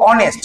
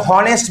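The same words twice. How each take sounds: First: অনেস্ট with a silent h, starting on the vowel; correct pronunciation. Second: হনেস্ট with a clear spoken h at the start; wrong pronunciation. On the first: Teacher giving students the right way, অনেস্ট with a silent h. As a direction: say অনেস্ট with no h sound at all. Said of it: "আমরা কি বলবো?". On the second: Teacher showing students the wrong way, হনেস্ট with the h voiced. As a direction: say হনেস্ট, sounding the h. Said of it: "আমরা এখানে বলবো না হনেস্ট". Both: Shown as a demonstration.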